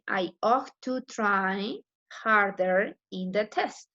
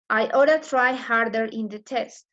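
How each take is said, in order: First: Each word is said fully and separately. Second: The words are reduced and run together. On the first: "In the other way, it would be"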